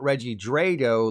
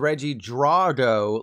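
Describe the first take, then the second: First: The 'a' in Drago sounds like 'ay'. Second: The 'a' in Drago sounds like 'ah'. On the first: The speaker calls it wrong. "not Reggie Drago, like Draco Malfoy" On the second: The speaker calls it right. "like Ivan Drago"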